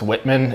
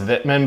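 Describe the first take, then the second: First: The name is said in an English way. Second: The name is said in a non-English way. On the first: This is how an English speaker would say it. "it's Whitman if you're English" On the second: This is how the name is properly pronounced. "it's pr- pronounced Wittmann"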